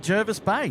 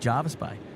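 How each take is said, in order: First: The first vowel sounds like 'er' in 'her'. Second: The first vowel sounds like 'ar' in 'car'. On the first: This is the speaker's own way of saying it. The speaker calls it right. "I say Jervis Bay" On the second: This is how many other people say it. The speaker calls it wrong. "A lot of people like to say Jarvis Bay"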